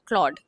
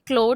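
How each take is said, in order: First: It is one syllable with an 'aw' vowel. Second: It is one syllable with an 'oh' vowel. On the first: "या क्लॉड" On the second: "pronounce करते हैं क्लोड"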